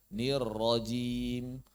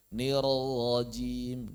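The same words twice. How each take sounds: First: Slow "nir rajim" with a firm trilled join; correct double R. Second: Drawn-out "nir rajim" with a slack gliding R; wrong released R. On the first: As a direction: keep the tongue on the RR of "nir rajim". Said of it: "Mestinya nir rajim". ("nir rajim" benar, R rapat bergetar) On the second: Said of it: "bukan nir rajim". ("nir rajim" keliru, R dilepas dulu) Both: Shown as a demonstration.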